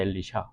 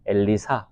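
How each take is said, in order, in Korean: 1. 세 번째 음절은 'sh' 소리로 시작합니다. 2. 세 번째 음절은 's' 소리로 시작합니다. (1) "정확한 발음은 엘리샤입니다" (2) "우리 한글 번역에서는 엘리사로 어, 번역을 했는데"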